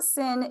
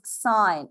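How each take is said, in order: First: The word has a short vowel, like 'sin'. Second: The word has a long vowel, like 'sign'. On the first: The speaker calls it wrong. "This is not sin" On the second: The speaker calls it right. "it is sign"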